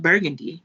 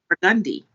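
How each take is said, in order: First: It is said the way the spelling suggests. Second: It is said the local New Orleans way. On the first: "spelled Burgundy" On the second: "pronounced Burgundy"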